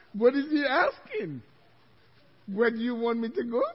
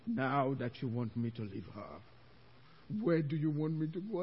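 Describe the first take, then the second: First: Louder, bewildered echo of a question; flustered, frightened retelling; acted panic. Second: Low, menacing demon; imitating a possessing demon's deep voice. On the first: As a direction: repeat it in mock alarm. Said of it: "I was so scared". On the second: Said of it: "'cause the deep voice".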